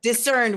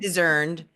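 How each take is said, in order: First: "discerned" with a crisp s sound; corrected discerned. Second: "Discerned" with a buzzing z for the s; mispronounced discerned. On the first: Correcting her own slip, "discerned" said with a clear s. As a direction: say "discerned" as diss-erned, s not z. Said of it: "was what I meant to say". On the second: Owning up to a slip on a new word, "Discerned" said with a z sound. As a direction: say "Discerned" as dizz-erned. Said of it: "Is that a new word?". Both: Real, not acted.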